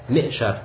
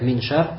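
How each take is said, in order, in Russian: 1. Перед sh звука n нет. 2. Перед sh есть звук n.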